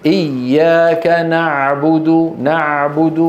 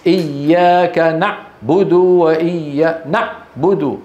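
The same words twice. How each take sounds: First: إياك نعبد joined with no gap; joined smoothly. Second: إياك نعبد with a gap before نعبد, the عين cut short; cut-off ain. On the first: Shown as a demonstration. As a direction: say إياك نعبد with the letters flowing. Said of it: "الحروف موصولة ببعض". (إياك نعبد موصولة بلا فراغ) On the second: Retold or imitated. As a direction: imitate the broken عين with a pause. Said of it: "بيقول لك مثلًا". (تقليد الخطأ: بتر العين في نعبد)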